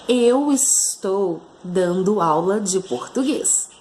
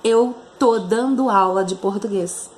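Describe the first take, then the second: First: The verb is said in full as 'estou'. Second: The verb is shortened to 'tô'. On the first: This is the formal register. "Isso seria o nível formal" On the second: This is the informal register. "no informal, olha a diferença"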